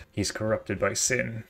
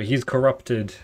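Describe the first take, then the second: First: Ominous slow line. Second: Louder, punchy declaration; first take, a forceful announcement; corrupted accusation. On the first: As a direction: let it sink in slowly. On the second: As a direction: hit it hard and firm. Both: Acted. Villain reason voiced twice.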